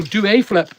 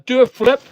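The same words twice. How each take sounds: First: "a" said in full as "ay"; stress on A. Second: Said in the usual way. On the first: Real, not acted. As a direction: give "a" its full letter-name sound, "ay". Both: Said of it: "Oh, no, do a flip".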